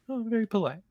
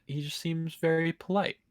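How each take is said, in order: First: Mock-impressed, pitched up high; sarcastic. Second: Said in the usual way. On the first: Shown as a demonstration. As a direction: sarcastically gush over the word polite.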